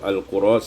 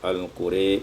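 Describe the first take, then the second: First: The final vowel is a plain open 'a'. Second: The final vowel is tilted toward 'e'.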